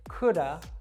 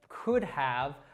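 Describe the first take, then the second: First: The word 'have' is reduced to a schwa. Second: The word 'have' is said fully. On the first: "reduce that simply to the schwa sound" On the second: "instead of us saying"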